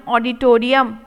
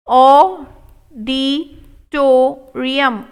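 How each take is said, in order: First: Said in the usual way. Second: Auditorium stretched very slow; slow model take. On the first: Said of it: "normal repeat". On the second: Shown as a demonstration. Teacher modelling auditorium slowly for students. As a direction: pull every syllable long. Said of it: "slow model take".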